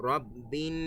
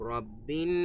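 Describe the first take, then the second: No difference in how they are said.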